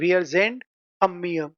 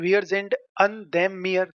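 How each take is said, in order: First: The preposition and article merge into one word. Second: The preposition and article are said separately. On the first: The speaker calls it right. "इससे अच्छा है" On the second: The speaker calls it wrong. "ये थोड़ा एक देम और बीच में ऐड हो गया"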